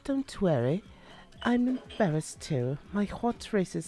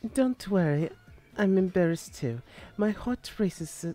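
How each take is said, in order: First: It is read with an attempted British accent. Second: It is read in the speaker's ordinary accent. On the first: "I tried to give it an accent" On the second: "the first time I didn't have an accent"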